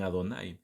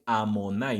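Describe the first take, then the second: First: The second consonant is a d sound. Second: The second consonant is an m sound. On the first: The name is said in its proper form. The speaker calls it right. "no dicen Adonai" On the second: The name is altered on purpose to avoid profaning it. The speaker calls it wrong. "a veces dicen Elohim y dicen Amonai"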